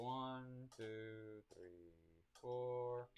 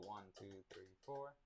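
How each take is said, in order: First: The counting is slow. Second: The counting is fast.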